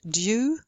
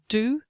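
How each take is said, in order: First: A y sound follows the d. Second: No y sound follows the d.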